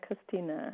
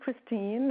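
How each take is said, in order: First: The name ends with an extra vowel after the n. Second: The name ends on the n with no extra vowel. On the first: "In German, they would say" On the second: "In English"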